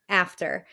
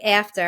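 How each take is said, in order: First: Said in the usual way. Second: "After" with a dropped New York r. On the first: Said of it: "I'm like". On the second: Shown as a demonstration. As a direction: say "After" the Long Island way. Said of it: "So I would say".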